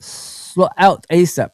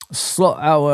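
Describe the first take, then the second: First: "Slot out asap" said slowly, with a clear "out"; slowly works out the intended "Slot out asap"; corrected reading. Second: "Slot our" read as written, the word our said like "hour"; misread comment. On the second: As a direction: reads "Slot our" aloud, puzzled at the typo. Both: Retold or imitated. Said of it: "that's what you meant to say".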